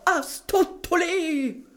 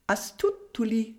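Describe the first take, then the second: First: The word is shouted loudly. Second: The word is said softly and quietly. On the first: "schreit laut" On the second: "sagt nun leise"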